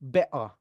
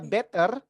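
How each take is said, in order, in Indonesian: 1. Bunyi t diganti hentian glotal. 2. Diucapkan dengan aksen Indonesia. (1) "Mau lebih British lagi, diglotalkan aja" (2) "itu nggak American, nggak British. Indonesia banget ya"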